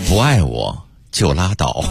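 It is said in a mild, gentle, refined manner. "你不可能这温文尔雅的那种"

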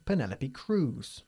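The name is said with English pronunciation.

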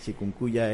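The word is said with an American English accent. The speaker calls it wrong. "es la pronunciación gringa"

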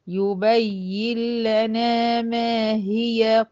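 The recitation runs on into the next word. "اما وصلت"

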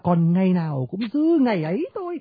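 The opening three words each get a strong beat. The reader conveys the line's meaning. The speaker calls it right. "Là còn ngày nào là ba cái nhấn liên tiếp tàm tàm tàm"

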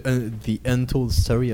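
It is said with an attempted English accent. "J'ai essayé de m'appliquer pour l'accent"

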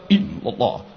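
The voice is held back and drawn inward. The remembrance is directed into the heart. The speaker calls it right. "justru zikir itu ke dalam"

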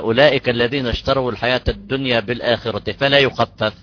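The reading stops right after 'fala yukhaffaf'. The stop cuts the next clause in half. The speaker calls it wrong. "هنا وقعنا في المحظور"

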